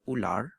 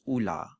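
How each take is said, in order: First: The final R is pronounced. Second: The final R is dropped, vowel lengthened. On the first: Standard Malay form. "the word ular" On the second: Common everyday Malay form. "the R is dropped and it becomes like a long vowel"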